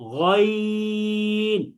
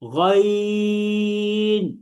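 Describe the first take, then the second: The two takes are said the same way.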